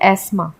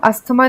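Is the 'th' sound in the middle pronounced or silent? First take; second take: silent; pronounced. First: The middle 'th' sound is silent. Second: The middle 'th' sound is pronounced. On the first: The speaker calls it right. "हम इसे बोलते हैं एस्मा" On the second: The speaker calls it wrong. "इसे अस्थमा को हम अस्थमा नहीं बोलते English में"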